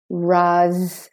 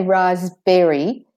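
First: "Raspberry" split as RAHZ, bree, silent P. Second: "raspberry" as RAHZ-berry, full e and rising end; alternative full berry. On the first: Teacher breaking it up, "Raspberry" as RAHZ-bree. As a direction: buzz a long Z in "Raspberry", two syllables. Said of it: "the S is saying Z". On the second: Teacher offering an alternative, "raspberry" in three syllables. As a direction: sound all of berry in "raspberry", silent P. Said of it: "Or you could say raspberry". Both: Shown as a demonstration.

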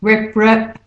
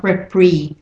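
First: Repre- said REP-ruh, with a short schwa; unclear second vowel. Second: Repre- said REP-ree, with an ee; wrong clear vowel. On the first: Teacher showing the de-stressed syllable, Repre- as REP-ruh. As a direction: reduce the end of Repre- to ruh. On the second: Teacher showing what not to say, repre- as REP-ree. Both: Shown as a demonstration. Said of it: "not repre".

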